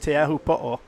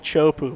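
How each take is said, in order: First: The name is said with all its syllables. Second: The name is squeezed into two quick syllables. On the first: The speaker calls it right. "but it's Teahupo'o" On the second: The speaker calls it wrong. "Some people say Chopu"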